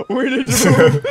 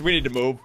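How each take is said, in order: First: Breaking into high laughter; laughing panic. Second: Said in the usual way. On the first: Real, not acted. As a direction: say it while cracking up. Laughing panic as Jason approaches.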